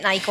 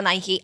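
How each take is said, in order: First: Nike ending on a plain k; one-syllable Nike. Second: Nike with an added "ee" ending; two-syllable Nike. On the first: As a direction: say Nike to rhyme with "bike". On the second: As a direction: say Nike as "NY-kee". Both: Shown as a demonstration. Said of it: "is it Nike or Nike?".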